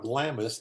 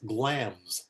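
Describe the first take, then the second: First: The name is said with two syllables. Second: The name is said with one syllable. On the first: The speaker calls it wrong. "it turns out is not Glamis" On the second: The speaker calls it right. "The I is in there, you don't pronounce it"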